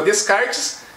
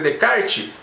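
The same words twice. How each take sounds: First: Every written letter of the name is sounded out. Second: Some written letters of the name stay silent. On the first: The speaker calls it wrong. "embora se, se escreva Descartes" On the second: The speaker calls it right. "a pronúncia correta é Descartes"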